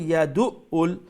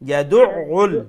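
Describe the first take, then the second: First: The consonant is a glottal stop from the lower throat. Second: The consonant is ain from the middle of the throat. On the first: The speaker calls it wrong. "তাইলে বোঝা যাইব যে আমি গলার নিচ থেকে উচ্চারণ করলাম" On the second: The speaker calls it right. "আইন যাতে মিডল থ্রোট থেকে উচ্চারণ"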